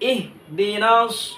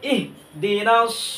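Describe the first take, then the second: Both takes have the same delivery.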